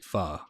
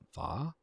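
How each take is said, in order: First: It is said with an American pronunciation. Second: It is said with a Vietnamese pronunciation. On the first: The speaker calls it wrong. "how they say it in in the United States" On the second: The speaker calls it right. "in Vietnam it's pho"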